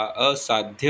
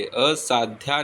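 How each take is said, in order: First: असाध्य ending in short "dhya"; correct short ending. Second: असाध्या ending in long "dhyaa"; wrong long ending. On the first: Teacher giving the correction, असाध्य with short ending. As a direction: keep the final vowel of असाध्य short. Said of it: "असाध्य होता है". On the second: Teacher showing the mistake, असाध्या with long final aa. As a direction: stretch the final vowel of असाध्या. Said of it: "असाध्या नहीं होता". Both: Shown as a demonstration.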